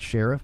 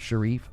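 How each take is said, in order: First: The name sounds like the word 'sheriff'. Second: The name does not sound like 'sheriff'. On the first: The speaker calls it wrong. "Not Sheriff" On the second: The speaker calls it right. "but Sharif, I believe"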